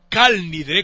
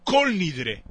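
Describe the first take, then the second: First: The first word has an 'a' vowel. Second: The first word has an 'o' vowel. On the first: This is how the people of Tangier say it. The speaker calls it right. "en vez de Kal Nidre, como los Tanjawis, que son los que siempre tienen razón" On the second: The speaker calls it wrong.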